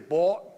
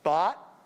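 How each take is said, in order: First: It uses an Outer Banks style vowel. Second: It uses the same vowel as cot. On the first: "like they do in the Outer Banks, and which is British kind of" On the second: "where cot and caught are the same vowel"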